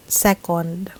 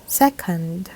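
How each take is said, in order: First: Second as SE-kond, full O; Filipino vowel sounds. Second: Second as SEK-und; weak, reduced ending on second, SEK-und; correct pronunciation. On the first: Teacher shows the Filipino habit, second as SE-kond. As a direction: say second with a clear O in the last syllable. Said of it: "what happens when we say". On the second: Teacher models English vowels, second as SEK-und. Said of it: "this word should be pronounced". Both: Shown as a demonstration.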